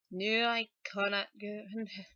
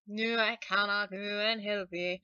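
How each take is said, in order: First: Put-on grandmother's line begun in a Scottish accent, then broken off. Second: Put-on grandmother's line restarted cleanly in a Scottish accent. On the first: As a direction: start the Scottish line and stumble. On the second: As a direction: get the Scottish line right this time. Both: Singer voicing the selkie's grandmother, Scottish accent. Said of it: "she has to have a Scottish sort of accent".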